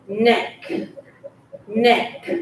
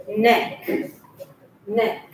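Both takes have the same delivery.

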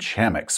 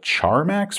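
First: The first syllable has no R sound. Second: The first syllable has an R sound. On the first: The speaker calls it right. "an uninhabited Earth-like planet named Chamax" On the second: The speaker calls it wrong. "I like to call it Charmax for some reason, even though there's no R"

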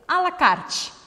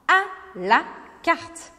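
First: It is said with a Brazilian Portuguese pronunciation. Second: It is said with a French pronunciation. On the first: The speaker calls it wrong. "que você fala com certeza à la carte" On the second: The speaker calls it right. "então aprenda a falar à la carte"

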